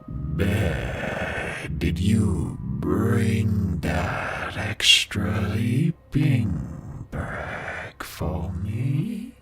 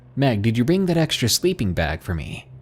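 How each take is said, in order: First: It is said in an inhuman, animal-like voice. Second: It is said in a normal human voice.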